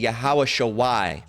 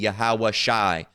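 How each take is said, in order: First: A 'wa' sound comes before the final 'i'. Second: No 'wa' sound comes before the final 'i'. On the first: The speaker calls it wrong. "So it would be" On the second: The speaker calls it right. "correct pronunciation would you you know you drop the uh uh the y and just the the the the wa part and just keep the I"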